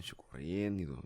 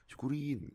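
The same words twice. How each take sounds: First: Said in the usual way. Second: "Syukurin" said higher as a smug jeer; mock gloating. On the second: Shown as a demonstration. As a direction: sneer "Syukurin" like serves-you-right. ("Syukurin" diucapkan mengejek, nada tinggi) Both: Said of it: "Bukan syukurin yang kayak".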